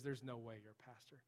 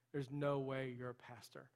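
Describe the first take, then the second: First: Said in the usual way. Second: Slow, incredulous repeat leaning hard on "no"; emphatic disbelief. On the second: Retold or imitated. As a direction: stress on "no", drawn out slowly.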